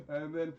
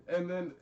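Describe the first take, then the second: No difference in how they are said.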